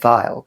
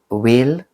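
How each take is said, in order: First: The name is said with a German pronunciation. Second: The name is said with an English-style pronunciation.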